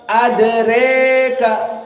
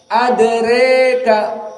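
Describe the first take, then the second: The two takes are said the same way.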